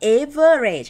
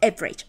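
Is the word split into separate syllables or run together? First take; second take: split; run together. First: Each syllable is said separately and fully. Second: The syllables are run together and reduced. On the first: The speaker calls it wrong. "ไม่มีใครจะอ่าน" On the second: The speaker calls it right. "อย่าจริงใจใส่ซื้ออ่านแกะเป็นพยางรวบเลยเป็น"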